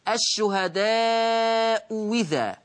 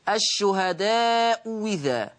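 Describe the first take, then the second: The two takes are said the same way.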